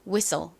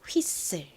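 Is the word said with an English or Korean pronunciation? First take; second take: English; Korean. First: It is said the native English way. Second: It is said the Korean loanword way. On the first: "발음해 볼게요" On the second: "한국식으로 읽을 때는요"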